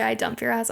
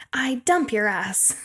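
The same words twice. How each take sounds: First: Said in the usual way. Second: Slow, drawn-out imitation of a breakup; quoted breakup line. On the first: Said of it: "So we say". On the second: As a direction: stretch out the quoted dumping, word by word. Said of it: "she's like".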